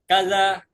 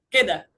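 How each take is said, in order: First: It is said with a z-like sound: kaza. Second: It is said with a d sound: keda. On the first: This is the formal written-language form. "Dalam fusa seperti itu" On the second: This is the everyday spoken form. "Dalam amiyah"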